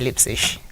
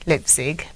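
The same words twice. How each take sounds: First: The name ends with an 'ish' sound. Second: The name ends with a hard g sound. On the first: This is how German speakers say it. "in German you say Leipzig. G is I S H" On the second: This is how English speakers usually say it. "we say Leipzig"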